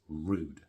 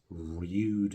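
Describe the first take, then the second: First: No y sound comes before the vowel. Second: A y sound comes before the vowel. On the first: The speaker calls it right. "it's rude" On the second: The speaker calls it wrong. "No one says rude"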